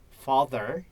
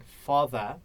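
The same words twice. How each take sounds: First: "father" with a sounded final R; American father. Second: "father" with the final R dropped; British R-less father. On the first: Learner contrasts accents for tutor, "father" ending in a clear American R. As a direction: say "father" the American way, R curled at the end. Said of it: "instead of in the American accent". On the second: Learner contrasts accents for tutor, "father" with no final R. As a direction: say "father" the British way, ending in an open "ah". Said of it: "British accent is not really quite, uh, clear". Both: Shown as a demonstration.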